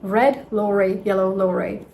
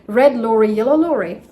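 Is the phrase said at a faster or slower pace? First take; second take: slower; faster. First: It is said at a slower, steady pace. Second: It is said at a faster pace.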